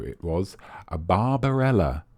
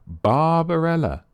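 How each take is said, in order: First: Said in the usual way. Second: "Barbarella" drawn out slow and high; "Barbarella" said slowly and higher for the quiz reveal; slow emphatic answer. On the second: Shown as a demonstration. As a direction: spell out "Barbarella" slowly, pitched up, falling at the end.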